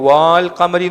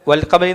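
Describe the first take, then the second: First: The first vowel is drawn out long. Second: The first vowel is kept short. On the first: The speaker calls it wrong. "ഇവിടെ നീട്ടുവോ? വാൽ ഖമരി എന്ന് പറയത്തില്ല" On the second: The speaker calls it right. "വൽ ഖമരി എന്നാ പറയാ"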